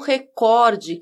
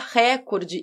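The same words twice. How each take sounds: First: The stress is on the second syllable. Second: The stress is on the first syllable. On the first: The speaker calls it right. "e não recorde, que é o correto" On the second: The speaker calls it wrong. "por que quase todo mundo fala recorde"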